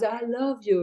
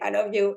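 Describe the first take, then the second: First: It is said in a hushed, sexy tone. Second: It is said in a mean, harsh tone. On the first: "in a very like, you know, hush, sexy, authentic way" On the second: "in a mean way"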